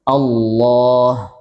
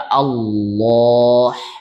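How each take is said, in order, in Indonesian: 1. Bunyi h di akhir adalah hembusan napas yang lembut dan ringan. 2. Bunyi h di akhir adalah bunyi yang keras dan berat dari tenggorokan.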